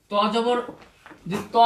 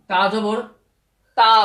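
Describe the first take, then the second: First: "ত" with a rounded aw, not aa; rounded vowel, no aa. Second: "তা" with an open, drawn-out aa; long aa vowel. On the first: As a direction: say "ত" as a rounded "taw". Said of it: "আকার পাচ্ছি না". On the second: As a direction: say "তা" with a clear aa sound. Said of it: "তাহলে আমরা কিন্তু আকার পাচ্ছি". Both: Shown as a demonstration.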